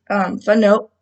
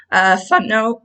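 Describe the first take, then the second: First: Said in the usual way. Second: Squeaky voice break, unintended; voice squeak. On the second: Real, not acted. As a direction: voice cracks upward on fun. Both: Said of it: "I don't know why my voice squeaked".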